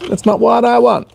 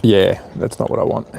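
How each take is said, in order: First: High mock sing-song, "That's not what I want" lifted up high. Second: Said in the usual way. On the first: Repeats line in sing-song voice.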